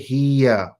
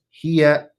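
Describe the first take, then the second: First: The ha sound is drawn out long. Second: The ha sound is kept short. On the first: The speaker calls it wrong. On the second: The speaker calls it right.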